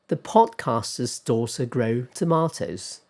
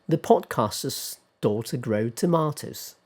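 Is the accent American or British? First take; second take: British; British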